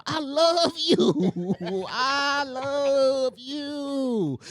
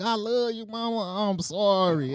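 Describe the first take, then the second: First: Very drawn-out, high mock wail; retold desperate yelling. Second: Slightly subdued mock-sorry child; retold meek apology. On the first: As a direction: stretch each word into a hammed-up plea. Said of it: "And I start yelling". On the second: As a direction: imitate a kid making up with mama. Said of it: "I gave her a hug".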